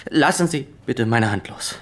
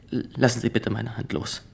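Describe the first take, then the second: First: Firm, louder repeat; insisting now, louder; louder insistence. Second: Said in the usual way. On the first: Acted. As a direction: raise the voice to make the point.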